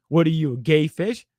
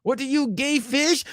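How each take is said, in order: First: Said in the usual way. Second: High-pitched mock Mexican accent; Carlos Mencia. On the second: Comedian springs the punchline on Kanye, mock Mexican accent. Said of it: "his own Mexican accent".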